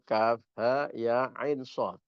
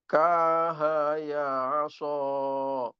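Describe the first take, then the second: First: Each letter name is said on its own. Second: The letters are blended into one word. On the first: The speaker calls it right. "Dibaca sendiri-sendiri" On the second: The speaker calls it wrong. "Jangan sampai ketukar seperti itu"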